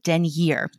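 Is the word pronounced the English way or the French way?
English. The word is pronounced the English way. It avoids sounding like trying too hard. "If you think you're trying too hard to sound French, you can just call it denier"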